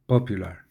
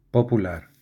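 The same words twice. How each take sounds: First: "popular" said the English way, pop-yoo-lar; "popular" with English vowels and a y glide; English pronunciation. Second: Said in the usual way. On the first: Shown as a demonstration. Reading a dictionary entry, "popular" in English sounds. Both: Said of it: "Del inglés pop".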